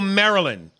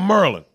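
First: It is said in a standard accent. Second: It is said in a Baltimore accent.

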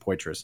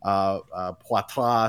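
First: The name is said with an English pronunciation. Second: The name is said with a French pronunciation. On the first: This is how the family has always said it. "they've always said Poitras" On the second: This follows the name's French origin. "they know the French roots of my name. I'll get Poitras sometimes, which technically is correct"

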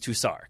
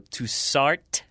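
First: The final consonant is silent. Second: The final consonant is pronounced. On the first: The speaker calls it right. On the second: The speaker calls it wrong.

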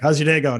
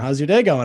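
First: It sounds perfunctory and uninterested. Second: It sounds sincere and genuinely interested.

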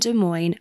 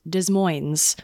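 First: The S sounds are silent in both words. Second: The S sounds are pronounced in both words. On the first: The speaker calls it right. "I just learned how to say Des Moines today" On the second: The speaker calls it wrong. "I thought that you pronounce the S's this whole time"

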